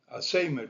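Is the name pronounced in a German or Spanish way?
Spanish. The name is pronounced with Spanish sounds. "como se dice en español"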